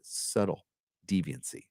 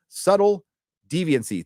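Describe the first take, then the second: First: Low and soft, drawn back; understated name repeat. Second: High, loud first word, then easing off; punched name call-out. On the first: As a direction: let the name drop away quietly. Says donor name again, subtly. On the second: Reads donor name, later repeated softly. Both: Real, not acted.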